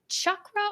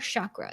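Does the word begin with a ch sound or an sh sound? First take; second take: ch; sh. First: It begins with a ch sound. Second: It begins with an sh sound. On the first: "Is it C H" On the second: "or S H"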